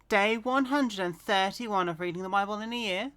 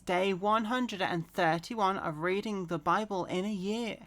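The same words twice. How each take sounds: First: The phrase is said at a faster pace. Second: The phrase is said at a slower pace.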